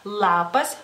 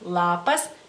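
The two takes are said the same way.

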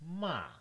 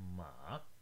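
First: The pitch falls from high to low. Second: The pitch dips low, then rises again. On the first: "the falling tone, you start fairly high and then go all the way down to 1" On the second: "The third tone has a little dip"

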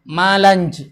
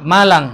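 First: The name ends with a 'j' sound. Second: The name ends with an 'ng' sound.

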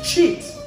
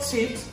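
First: The word begins with a 'ch' sound. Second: The word begins with a 'ts' sound. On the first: The speaker calls it right. "It's chips, Ch. C-H" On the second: The speaker calls it wrong. "not chips. You're saying chips. Tips. T-S"

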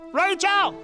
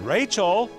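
First: The name is yelled very loudly. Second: The name is called more loudly.

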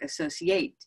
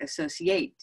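First: The stress falls on another syllable. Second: The same.

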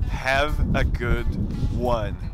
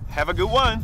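First: The phrase is said at a normal pace. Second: The phrase is said very fast and run together.

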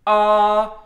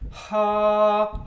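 First: The vowel starts with a hard, catchy edge. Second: Breathy air is heard before the vowel starts. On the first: "glottal, where your voice starts early, ... you get kind of that edge on the sound" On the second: "an aspirate, ... where the air starts early"

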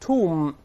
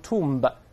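First: The final b is silent. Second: The final b is sounded. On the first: The speaker calls it right. "咱们读成tomb" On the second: The speaker calls it wrong. "而不是tomb"

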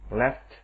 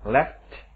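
Both takes have the same delivery.

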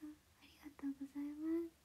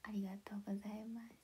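First: It is said in a higher voice. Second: It is said in a lower voice.

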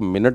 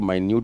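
First: The first syllable sounds like 'min'. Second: The first syllable sounds like 'my'. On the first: It is used as a noun. "अगर आप इसको मिनट बोलो तो ये noun हो जाएगा" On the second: It is used as an adjective. "इसको माइन्यूट बोलो तो ये एडजेक्टिव हो जाएगा"

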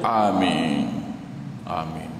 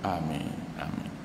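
First: It is said loudly. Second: It is said softly.

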